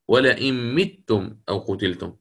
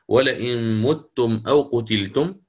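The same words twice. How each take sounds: First: متم said mitum with an i on the mim; slow careful متم as mitum; reading with kasra. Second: متم said mutum with a clear u on the mim; slow careful متم as mutum; reading with damma. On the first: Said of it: "قرأ بضم الميم". (متم بكسر الميم) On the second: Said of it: "هناك من يقرأ". (متم بضم الميم) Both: Shown as a demonstration.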